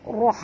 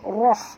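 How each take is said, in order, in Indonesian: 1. Bunyi r tebal, dengan vokal yang membulat. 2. Bunyi r tebal, dengan vokal yang membulat.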